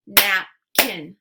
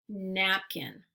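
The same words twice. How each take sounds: First: Napkin as loud "nap... kin"; split into syllables. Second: Said in the usual way. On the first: Shown as a demonstration. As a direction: punch out both halves of Napkin separately. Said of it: "give you two parts to a word". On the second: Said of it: "swipe to say the whole word".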